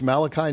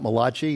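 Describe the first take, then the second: First: The name is said the plain English way. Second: The name is said with an Italian-sounding pronunciation. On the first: The speaker calls it right. "it's Malachi" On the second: The speaker calls it wrong. "not Malachi. He's not Italian"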